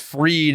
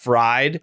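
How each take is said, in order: First: The name is said in the standard way. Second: The name is said the heckler's way. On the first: The speaker calls it right. "it was fried" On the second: The speaker calls it wrong. "and not fried"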